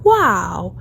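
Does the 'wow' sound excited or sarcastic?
excited. It is said in an excited, pleased tone. The news is genuinely welcome. "ใช้เวลาที่เรารู้สึกดีใจตื่นเต้นหรือว่าประหลาดใจ"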